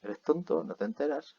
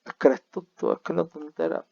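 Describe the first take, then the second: First: Higher, teasing query; lightly mocking question. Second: Higher, louder teasing jab; playful mock rebuke; mock scolding. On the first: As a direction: ask it as a joking jab, without "es que". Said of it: "en español también tenemos este es que". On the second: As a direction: tease the student, mock exasperation. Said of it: "hago la broma con".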